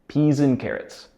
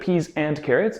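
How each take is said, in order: First: The word 'and' shrinks to an n sound. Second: The word 'and' is said in full. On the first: "when it's spoken more quickly, the and reduces to just the ng sound" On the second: "instead of peas and carrots"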